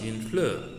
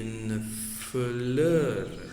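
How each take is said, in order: First: The phrase is said quickly and joined. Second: The phrase is said slowly and separately. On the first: "as you read it fast" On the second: "if you read it slowly"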